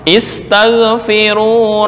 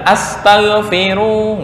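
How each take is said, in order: First: The word begins with an i vowel. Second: The word begins with an a vowel. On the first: A command to ask forgiveness. The speaker calls it right. "asal adalah dibaca kasrah" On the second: It becomes a question about asking forgiveness. The speaker calls it wrong. "bukan astaghfiru"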